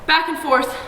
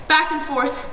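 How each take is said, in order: Both takes have the same delivery.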